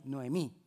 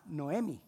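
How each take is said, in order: First: Noemí with the stress on the final accented Í; no-e-MÍ, land on the last syllable; correcting the name to Noemí with a stressed final Í. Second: Noemi said with stress on the E, no accent on the last I; NO-emi, stress away from the final I; misreading the name Noemi without the tilde; wrong stress on Noemi. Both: Shown as a demonstration. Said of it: "porque tiene tilde en la I".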